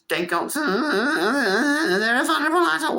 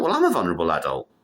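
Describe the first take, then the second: First: Mock bureaucrat. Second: Said in the usual way. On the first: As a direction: parody the rule-makers pitched way up. Mocking official regulation talk.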